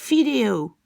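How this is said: It starts with an f-like sound. "aux Pays-Bas, on ne dit pas V, mais F"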